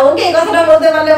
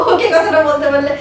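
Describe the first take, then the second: No difference in how they are said.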